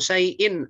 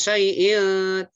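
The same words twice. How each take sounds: First: The final n is clear without a nasal hum. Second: The final n is held with a nasal hum. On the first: The speaker calls it right. "tanwin bertemu alif, nggak dibaca dengung" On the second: The speaker calls it wrong. "salah kalau baca dengung"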